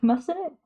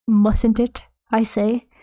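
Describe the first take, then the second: First: Said in the usual way. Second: Lightly voiced Dickensian orphan. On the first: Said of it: "Like a Dickensian orphan". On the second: Streamer mocks own quaint wording, lightly as a Dickensian orphan. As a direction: put on a hint of old-fashioned orphan formality. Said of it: "Like a Dickensian orphan, I say".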